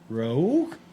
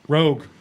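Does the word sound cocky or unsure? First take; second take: unsure; cocky. First: It is said hesitantly, without confidence. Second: It is said boldly, with confident swagger. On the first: The speaker doubts what they see. The speaker calls it wrong. "came across more... unsure" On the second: The speaker is sure of themselves. The speaker calls it right. "that kind of cocky"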